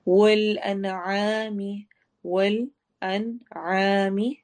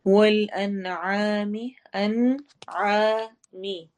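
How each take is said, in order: First: Very slow chanted tajweed recitation; teacher reciting verse for students; Quran recitation. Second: अनआमी very slow, the nun nasal and drawn; slow corrected recitation; hidden nun. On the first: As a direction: intone each syllable slowly. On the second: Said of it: "अन में नून की आवाज़ को वाजिया पढ़ना है". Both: Shown as a demonstration.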